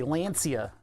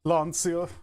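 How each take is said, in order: First: Lancia with a flat American "a", LAN-see-uh; American pronunciation. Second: Lancia with a broad "ah", LAHN-see-a; European pronunciation. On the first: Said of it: "in my nasally American voice". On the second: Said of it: "like the Euros would say it". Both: Shown as a demonstration.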